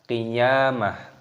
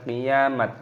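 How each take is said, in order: First: The word ends with a soft h sound. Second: The word ends with a t sound. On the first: The speaker calls it right. "maka dibaca qiyamah" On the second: The speaker calls it wrong. "bukan qiyamat. Nah, itu salah"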